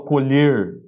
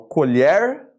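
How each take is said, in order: First: The stressed vowel is pronounced closed. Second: The stressed vowel is pronounced open. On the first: "Depois eu falo colher com a pronúncia fechada" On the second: "eu falo colher com a pronúncia aberta"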